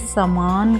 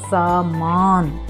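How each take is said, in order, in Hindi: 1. पहला स्वर छोटा है। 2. पहला स्वर लंबा है। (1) "यहाँ पर समान नहीं आएगा" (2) "तो दीर्घ आएगा सामान"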